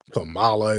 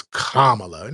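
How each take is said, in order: First: "Kamala" said kuh-MAH-la; stress on second syllable. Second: "Kamala" said KAH-muh-la, drawn out; stress on first syllable. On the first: Host quoting the version people object to, "Kamala" as kuh-MAH-la. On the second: Host mimicking people correcting him, "Kamala" as KAH-muh-la. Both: Acted. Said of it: "when people try to correct".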